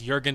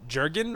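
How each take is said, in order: First: The name begins with a Y sound. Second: The name begins with a hard J sound. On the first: The speaker has always said it this way. "in some languages you wouldn't pronounce the J" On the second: Some other people say it this way. "Some people pronounce it"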